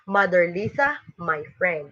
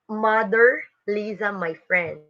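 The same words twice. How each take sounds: First: There is a pause right after Lisa. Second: There is a pause right after Mother.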